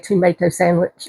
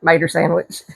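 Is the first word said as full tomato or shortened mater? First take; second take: full tomato; shortened mater. First: The first word is the full three-syllable tomato. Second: The first word is the shortened two-syllable mater. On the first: "we don't say tomato sandwich" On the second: "we get mater sandwich"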